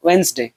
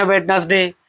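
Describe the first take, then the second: First: "वेडनेसडे" said as WENZ-day, two syllables; correct pronunciation. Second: "वेडनेसडे" read as wed-nes-day, three syllables; common spelling pronunciation. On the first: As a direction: drop the first d in "वेडनेसडे", wens-day. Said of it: "इसका सही pronunciation है". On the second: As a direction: sound the d and middle syllable in "वेडनेसडे". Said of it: "हम लोग पढ़ते हैं". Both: Shown as a demonstration.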